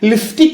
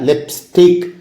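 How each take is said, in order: First: The middle has an f sound, no p-s. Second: The middle has a p-s sound, no f. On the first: The speaker calls it wrong. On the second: The speaker calls it right.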